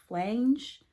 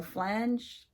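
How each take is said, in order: First: Unsure first try at "flange", long a like change; uncertain pronunciation. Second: "flange" said with a short a as in hand, ending in nj; "flange" rhymes with hand plus j; corrected "flange", short a like hand; second pronunciation. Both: Shown as a demonstration. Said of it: "I, I don't know".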